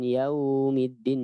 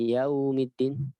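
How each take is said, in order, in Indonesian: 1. Vokal dalam yaum dipanjangkan. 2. Vokal dalam yaum dipanjangkan.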